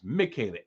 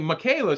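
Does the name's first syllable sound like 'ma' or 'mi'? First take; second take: mi; ma. First: The first syllable sounds like 'mi'. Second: The first syllable sounds like 'ma'. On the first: "it's Michaela, M I" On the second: "Why you pronouncing it like M A?"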